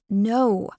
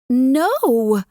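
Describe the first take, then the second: First: It is said quietly, with a lowered voice. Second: It is said loudly, with a raised voice.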